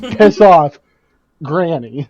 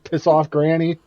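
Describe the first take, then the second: First: There is a clear pause before Granny. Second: It runs together with no pause before Granny.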